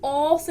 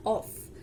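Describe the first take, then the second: First: ऑफ with a long, stressed o; wrong emphasized vowel. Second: Said in the usual way. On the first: Shown as a demonstration. Teacher demonstrating the wrong stressed reading to students. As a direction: lean hard on the o of ऑफ. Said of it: "emphasis देके नहीं बोलते". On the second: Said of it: "normal है ऑफ".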